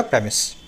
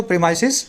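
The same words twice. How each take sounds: First: प्रेमिस said as "PREM-iss"; singular pronunciation shown. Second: प्रीमाइसेस said as "pree-MICE-iz"; plural pronunciation shown. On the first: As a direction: say प्रेमिस short, ending in "iss", no "ice" sound. (प्रेमिस, अंत में "इस" वाला उच्चारण) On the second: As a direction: say प्रीमाइसेस with an "ice" sound before the plural ending. (प्रीमाइसेस, बीच में "आइस" वाला उच्चारण) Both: Shown as a demonstration. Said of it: "pronunciation भी सिखाने की कोशिश कर रहा हूँ".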